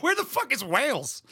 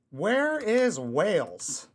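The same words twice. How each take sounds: First: Higher, exasperated blurt; mock-baffled cry; baffled outburst. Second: Very slow, spelling it out; drawn-out search-bar reading; slow typed query. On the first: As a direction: toss it off in disbelief. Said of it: "I'm like". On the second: Shown as a demonstration. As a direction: read it out slowly as you type. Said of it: "dumbest thing I've ever typed into my search bar".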